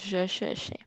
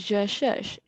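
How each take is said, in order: First: The final vowel of cherche is pronounced. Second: The final vowel of cherche is silent. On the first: The speaker calls it wrong. "instead of" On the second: The speaker calls it right. "because the E is silent"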